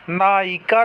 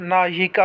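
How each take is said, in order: First: नायिका as "na-i-ka"; wrong, missing y. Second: नायिका as "na-yi-ka"; correct y glide. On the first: Teacher showing students the mistake, glide dropped. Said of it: "नहीं होता है". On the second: Teacher giving students the right form, glide sounded. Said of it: "होता है". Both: Shown as a demonstration.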